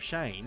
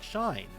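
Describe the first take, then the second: First: The vowel sounds like 'ay', as in same. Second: The vowel sounds like 'eye', as in shine. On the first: This is how other people say it. The speaker calls it right. "instead of Shane" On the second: This is how the Serbian-Slovak side of the family says it. The speaker calls it wrong. "my name would be said like Shine"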